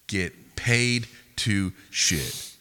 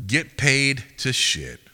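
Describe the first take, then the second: First: "Get paid to shit" very slow, with gaps between words; word-by-word emphasis. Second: "Get paid to shit" slow, loud and raised; emphatic slogan. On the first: Repeating it to the guys, "Get paid to shit" very slow and deliberate. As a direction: spell out "Get paid to shit" one loud word at a time. Repeats slogan even more slowly. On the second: Dropping knowledge on the guys, "Get paid to shit" loud and emphatic. Mock lecture, first emphatic take. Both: Real, not acted.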